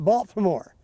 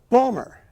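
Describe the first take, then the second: First: It is said the full outsider way. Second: It is said the local Baltimore way, clipped.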